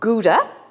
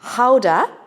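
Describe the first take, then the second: First: The word has the common English pronunciation. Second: The word has the Dutch pronunciation. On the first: "We call it Gouda" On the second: "The Dutch pronounce it Gouda"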